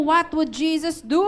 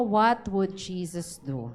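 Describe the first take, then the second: First: Raised and louder prompt; urging louder repeat. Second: Slow, low, deliberate question; slow modeled question. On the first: Pastor urges the congregation to repeat it, louder. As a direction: push them to ask it aloud. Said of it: "Sige, tanungin mo". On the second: Pastor models the question for the congregation, slow. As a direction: ask it slowly as a model. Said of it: "Tanungin mo nga yung katabi mo". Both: Shown as a demonstration.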